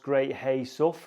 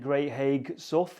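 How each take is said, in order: First: The middle word ends in an open vowel. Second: The middle word ends with a hard g sound. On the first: The speaker calls it right. "apparently it's pronounced" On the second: The speaker calls it wrong. "I was pronouncing it"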